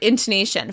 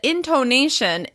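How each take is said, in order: First: The second syllable has a short, reduced vowel. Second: The second syllable has a long O vowel. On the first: "following the typical pattern of words that end in T I O N" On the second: "with a long O on the second syllable"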